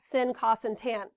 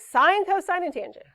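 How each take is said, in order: First: The terms are said as short clipped syllables. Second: The terms are said as full complete words. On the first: The speaker calls it wrong. "This is one thousand percent not sin, cos, and tan. Makes my skin crawl" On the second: The speaker calls it right. "So sine, cosine, and tangent"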